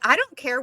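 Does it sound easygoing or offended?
easygoing. It sounds easygoing and friendly.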